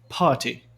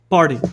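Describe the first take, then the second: First: The r is silent and the t is crisp. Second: The r is sounded and the t is d-like. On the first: "No sotaque britânico, esse R antes da consoante não é pronunciado, alonga a tônica" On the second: "No sotaque americano tem essa articulação"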